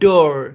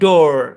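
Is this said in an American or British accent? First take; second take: American; American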